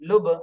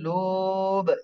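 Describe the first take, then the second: First: The word is said quickly with a short vowel. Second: The word is said slowly with a stretched vowel. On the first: The speaker calls it right. "উচ্চারণটা তাড়াতাড়ি হচ্ছে" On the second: The speaker calls it wrong. "আমরা কিন্তু লুব এভাবে টান দিচ্ছি না"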